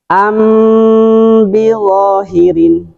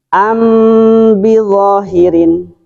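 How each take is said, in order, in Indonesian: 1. Huruf m ditahan dengan dengung sengau. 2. Huruf m ditahan dengan dengung sengau.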